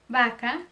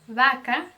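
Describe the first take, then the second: Both takes have the same delivery.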